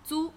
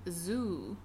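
First: The z sound is light and soft. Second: The z sound is strong and buzzing. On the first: The speaker calls it right. "can you pronounce it again the Chinese way?" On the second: The speaker calls it wrong. "those English speakers tend to do that sometimes"

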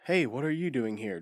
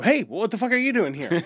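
First: It is said flatly, without natural inflection. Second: It is said expressively, with lively inflection.

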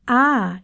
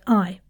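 First: It has a long, drawn-out Southern Belle vowel. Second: It has a short, closed British vowel.

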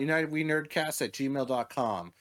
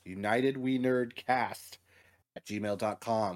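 First: It is said fast. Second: It is said slowly.

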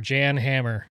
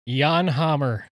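First: The name is said just as it's spelled. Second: The name is said differently from its spelling.

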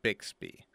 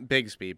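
First: The middle consonants sound like 'ks'. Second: The middle consonants sound like 'gz'. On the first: The speaker calls it right. "but Bixby" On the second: The speaker calls it wrong. "Not Bigsby"

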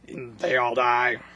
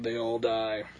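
First: It is said in a put-on character voice. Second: It is said in a natural speaking voice. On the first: The speaker calls it wrong. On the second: The speaker calls it right.

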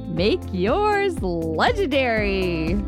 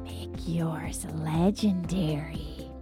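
First: It is said in a normal way. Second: It is said in a creepy way.

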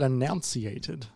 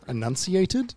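First: The middle sounds like 'nounce', as in announcement. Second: The middle sounds like 'nunci', as in enunciate. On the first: The speaker calls it wrong. "like you were like it's pronouncing an announcement" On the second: The speaker calls it right. "Enunciated, do you mean?"

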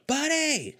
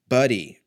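First: It is said with loud excitement. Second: It is said flatly, without excitement.

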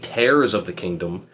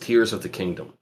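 First: The word tears rhymes with airs. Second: The word tears rhymes with ears. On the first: The title refers to ripping something apart. The speaker calls it wrong. "I guess it could be Tears of the Kingdom. I don't think it is" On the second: The title refers to crying. The speaker calls it right. "a lot of other people assume it's Tears of the Kingdom"

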